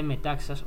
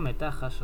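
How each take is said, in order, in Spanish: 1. La consonante del medio se pronuncia como ks. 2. La consonante del medio es un sonido j gutural.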